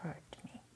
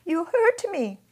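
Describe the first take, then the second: First: Whispered hurt. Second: High, loud, sobbing cry of pain; the child sobbing at the soldier. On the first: Fragment whispered before the story. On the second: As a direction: wail it out through tears. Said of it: "I sobbed". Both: Acted.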